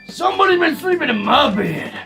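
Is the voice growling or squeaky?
growling. It is said in a growling voice.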